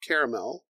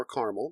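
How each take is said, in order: First: "caramel" said CARE-uh-mel, in three syllables. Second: "caramel" said CAR-mul, in two syllables. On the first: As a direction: say "caramel" with CARE first and a clear "mel" at the end. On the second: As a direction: squeeze "caramel" into CAR-mul, dropping the middle vowel. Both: Shown as a demonstration. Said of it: "depending on how you say it".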